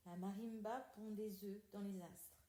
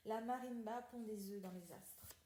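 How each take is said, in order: Both takes have the same delivery.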